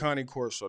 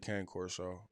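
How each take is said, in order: First: The first word has two syllables, like 'Connie'. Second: The first word has one syllable, like 'cane'. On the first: "That's that's that's what it's that's how you say it" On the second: "But a lot of people say Cane Corso"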